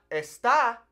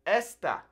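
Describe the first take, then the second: First: Está stressed on the last syllable, es-TAH, drawn out; stress on second syllable. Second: Esta stressed on the first syllable, ES-ta. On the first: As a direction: land hard on the final á of está. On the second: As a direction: punch the e of esta, short falling ending. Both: Shown as a demonstration. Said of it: "there's a little accent on these first E's".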